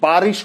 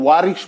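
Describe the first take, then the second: First: The word begins with a 'b' sound. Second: The word begins with a 'v' sound. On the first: The speaker calls it right. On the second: The speaker calls it wrong.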